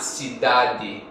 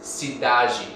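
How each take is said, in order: First: The final D is hard, like an English d. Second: The final D is soft, like a j sound. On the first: This is the way of Portugal. "not cidade, which is more continental Portuguese" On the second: This is the Brazilian way. "that's a soft D"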